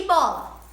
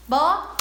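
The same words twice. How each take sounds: First: Said in the usual way. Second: "Bola" split into bo, la with a gap; syllable by syllable. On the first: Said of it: "separarmos as sílabas de outras brincadeiras". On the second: Shown as a demonstration. Teacher counting for pupils, "Bola" broken into separate syllables. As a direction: punch out "Bola" in two loud beats. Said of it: "pra nós separarmos as sílabas".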